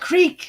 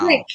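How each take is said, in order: First: The word has a long 'ee' vowel. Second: The word has a short 'i' vowel. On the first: The speaker calls it wrong. "not Creek" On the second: The speaker calls it right. "Crick, not Creek"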